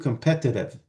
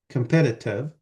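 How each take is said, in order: First: Only the second t sound is flapped. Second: Both t sounds are pronounced as full t. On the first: The speaker calls it wrong. "you cannot flap only the second one ... That's completely out" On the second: The speaker calls it right. "you don't really have to flap the T"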